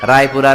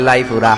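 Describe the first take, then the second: First: The word begins with an R sound. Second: The word begins with an L sound. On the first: This is the standard form of the place name. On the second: This is how local people there say it.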